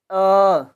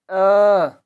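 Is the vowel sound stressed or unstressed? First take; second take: stressed; stressed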